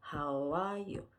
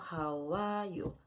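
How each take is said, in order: The two takes are said the same way.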